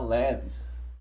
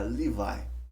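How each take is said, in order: First: The name ends with an s sound. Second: The name ends without an s sound. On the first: The speaker calls it wrong. "A gente costuma falar Levis" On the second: The speaker calls it right. "a pronúncia certa é Levi"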